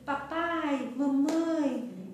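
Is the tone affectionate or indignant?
affectionate. It is said with warm affection.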